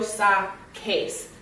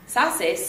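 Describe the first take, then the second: First: The middle consonant is a k sound. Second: The middle consonant is an s sound. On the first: The speaker calls it right. "I have to change the consonant to keep the sound strong" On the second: The speaker calls it wrong. "It doesn't sound at all like sacar"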